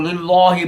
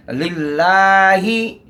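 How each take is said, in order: First: लिल्लाही with a heavy, doubled लाम; mock the mistaken लिल्लाही, leaning on the लाम; wrong recitation. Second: लिल्लाही very slow, thin लाम held one alif; correct recitation. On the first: Teacher imitates the common mistake, a heavy lam. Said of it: "ये भी गलत है". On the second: Teacher shows the right लिल्लाही, very slow. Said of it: "इस तरह पढ़ना है". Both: Shown as a demonstration.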